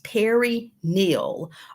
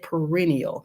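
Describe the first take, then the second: First: It sounds like two names, Perry Neal. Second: It sounds like the word perennial. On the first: "I say that as two words, like two names" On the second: "Our foreign-born nurses usually say perennial"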